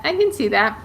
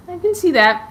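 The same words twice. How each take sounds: First: Said in the usual way. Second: High and louder, delighted; excited agreement. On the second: Real, not acted. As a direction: gush it out. Repeats her answer to the comment.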